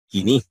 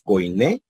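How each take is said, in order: First: The first syllable sounds like 'kee'. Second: The first syllable sounds like 'koy'. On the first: This is how another group says it. "otros dicen quiní" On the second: This is how the speaker's group says it. "algunos decimos coiné"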